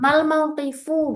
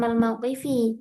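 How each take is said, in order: First: The last word ends with a 'u' vowel. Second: The last word ends with an 'i' vowel. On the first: The speaker calls it right. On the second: The speaker calls it wrong.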